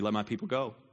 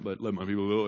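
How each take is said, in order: First: It is said in a normal-pitched voice. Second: It is said in a deeper, lower voice. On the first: The speaker calls it wrong. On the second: The speaker calls it right.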